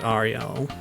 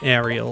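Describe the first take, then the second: First: The name is said in a character's accent. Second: The name is said in a plain accent. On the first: This is how the friend says her own name. "It's the one that only Sebastian does" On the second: This is how most characters in the film say it. "the way most characters do in the film"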